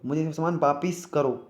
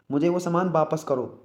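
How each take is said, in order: First: वापिस slowed, with "pis"; wrong pronunciation. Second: वापस said "vaa-pas" in the sentence; short "a" in वापस; correct pronunciation. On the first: Teacher gives students the wrong sentence, mispronounced. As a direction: stress the faulty "i" in वापिस. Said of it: "गलत है भाई, वापिस". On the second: Teacher gives students an example sentence, careful pronunciation. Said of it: "वापस होता है". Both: Shown as a demonstration.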